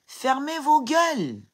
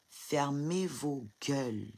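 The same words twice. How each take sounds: First: Much higher and louder, slow and hammered; real enraged shout; furious shout. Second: Slow and soft, each word set down; quiet icy contempt; cold slow order. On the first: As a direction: scream it at the critics. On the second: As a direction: lay it down coldly and slowly. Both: Real, not acted. Telling commenters to shut up.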